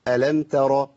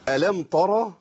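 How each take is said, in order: First: The t sound is light and clearly separate. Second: The t sound is heavy and colored by r. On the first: The speaker calls it right. "ايوه كده" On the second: The speaker calls it wrong. "ما تنفع"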